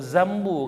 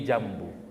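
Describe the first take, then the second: First: The word begins with a z sound. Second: The word begins with a j sound. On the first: The speaker calls it wrong. "Kalau zombu disebutnya udah zo itu" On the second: The speaker calls it right. "Jambu itu huruf jim"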